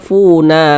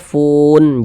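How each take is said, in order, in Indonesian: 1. Kata "fun" diakhiri dengan bunyi vokal tambahan. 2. Kata "fun" diakhiri dengan bunyi n mati. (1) "jangan dibaca funa" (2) "kalau kita berwakaf di huruf nun kita baca fun"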